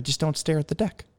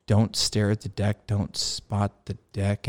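First: Higher, light, offhand tip; gentle, casual debriefer. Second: Slow, measured repetition to oneself; pondering the advice. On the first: Instructor corrects pilot's landing, gentle and casual. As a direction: imitate an easygoing instructor's mild correction. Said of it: "real gentle, real casual". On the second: Pilot mulls over debrief advice, slowly pondering. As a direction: chew over each word of the instruction. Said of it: "had a little, you know, come to Jesus". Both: Retold or imitated.

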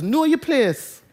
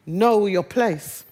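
First: Jamaican patois "Know your place", "place" said like "pleess", "your" a quick "yuh". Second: Said in the usual way. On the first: Shown as a demonstration. Preacher showing the congregation his Jamaican mum's patois warning. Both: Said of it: "And I'd say that in patois".

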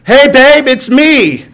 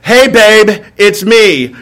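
First: Louder, higher cheery husband on the phone; breezy call home to warn her; phone call to wife. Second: Easy call home, lightly voiced; phone call to wife. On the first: Retold or imitated. Husband phoning his wife, louder higher cheery greeting. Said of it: "the phone call sounds like this". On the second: Husband phoning wife about guests, lightly voiced casual greeting. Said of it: "this is how this call sounds".

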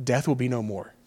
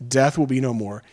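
First: Softer, moved, voice close to tears; choked up. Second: Said in the usual way. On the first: Real, not acted. Pastor overcome while repeating the verse, softly moved. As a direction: let the words catch with emotion. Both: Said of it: "I guess I get emotional".

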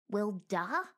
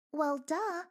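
First: Puzzled "Well, duh?" rising at the end; incredulous echo. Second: Sarcastic duh. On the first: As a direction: repeat it back, offended. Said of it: "What do you mean by that". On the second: Squeak mocking. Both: A narrator's reading.

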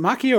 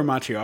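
First: Macchio said "MAH-kee-oh"; hard K in Macchio. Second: Macchio said "MAH-chee-oh"; CH sound in Macchio. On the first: Unsure of the actor's surname, trying Macchio as "MAH-kee-oh". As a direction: say Macchio with a K sound in the middle. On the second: Unsure of the actor's surname, offering Macchio as "MAH-chee-oh". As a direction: say Macchio with a CH as in match. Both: Shown as a demonstration. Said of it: "is it Macchio or Macchio?".

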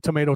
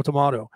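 First: Tomato said with a long AY in the middle; everyday American tomato, "may". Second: Tomato said with a broad AH in the middle; tomato, middle syllable rhyming with "spa". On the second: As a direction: say tomato as to-MAH-to. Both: Shown as a demonstration. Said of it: "like I did with".

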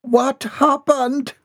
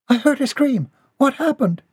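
First: Very high, drawn-out horrified question; high, stretched-out alarm. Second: High-pitched urgent questioning; high, worried query at normal speed; alarmed maid. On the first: A narrator's reading. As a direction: gasp the question high and slow in horror. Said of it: "her heart stopped in alarm". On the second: Acted. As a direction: burst in asking in a high young-maid voice. Maid rushes in after scream.

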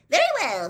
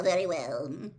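First: Loud, high, booming agreement; big jovial acceptance; hearty recovery. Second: Said in the usual way. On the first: A narrator's reading. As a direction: burst back into joviality. Bagman recovers himself heartily.

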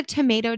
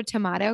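First: "tomato" with a long AY; to-MAY-to pronunciation. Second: "tomato" with a broad AH; to-MAH-to pronunciation. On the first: Host asking about either-way words, "tomato" as to-MAY-to. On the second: Host asking about either-way words, "tomato" as to-MAH-to. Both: Shown as a demonstration. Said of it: "you can pronounce it either way".

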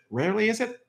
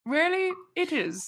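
First: "Rarely is it?" rising as a question; questioning tune. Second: "Rarely it is." with stress on "Rarely", falling; "Rarely it is." stated flatly with a fall; firm statement. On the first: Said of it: "uh, rarely is it". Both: Shown as a demonstration.

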